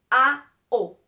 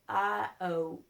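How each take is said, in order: First: "A-O" louder with clean open a and pure o; pure Spanish vowels. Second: "A-O" slow with gliding English o; "A-O" with English vowels; students' English vowels. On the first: Shown as a demonstration. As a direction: model the correct Spanish vowels. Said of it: "it's not A-O, it's A-O". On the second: Retold or imitated. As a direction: imitate a learner's diphthong. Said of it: "they say A-O".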